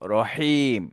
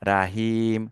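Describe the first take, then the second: First: The first vowel is said with rounded lips. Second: The first vowel is an open 'a' sound. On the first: The speaker calls it right. "দুই ঠোঁট গোল করে একটু উচ্চারণ করতে হয়" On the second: The speaker calls it wrong. "অনেকে বলে রা, ... মারাত্মক ভুল"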